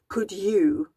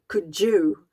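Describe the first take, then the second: First: The d and y sounds stay separate. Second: The d and y merge into a j sound. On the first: The speaker calls it right. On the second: The speaker calls it wrong.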